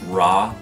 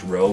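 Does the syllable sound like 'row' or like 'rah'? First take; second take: rah; row. First: The vowel sounds like the 'a' in 'rah'. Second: The vowel sounds like the 'o' in 'row'. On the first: The speaker calls it right. "but Ra, like the sun god of ancient Egyptian mythology" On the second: The speaker calls it wrong. "it's not pronounced Ro"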